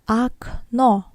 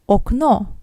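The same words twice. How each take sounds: First: The first o is changed from its written sound. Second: The first o sounds exactly as written. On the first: "which is usually pronounced as" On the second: "The same goes to"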